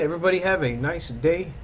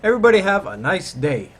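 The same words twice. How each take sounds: First: It is said flatly, without excited inflection. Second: It is said with lively, excited inflection. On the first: "that wasn't even like an, an exiting kind of inflection" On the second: "Let me try it again"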